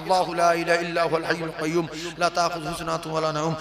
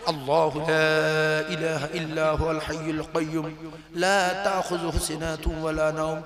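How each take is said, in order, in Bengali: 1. এটি খুব দ্রুত ও জড়িয়ে জড়িয়ে পড়া হয়। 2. এটি ধীরে ও যত্ন সহকারে পড়া হয়। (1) "আমি এত স্পিডে পড়ছি তবু জড়িয়ে যাচ্ছে" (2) "আর যদি ভালো করে পড়ি"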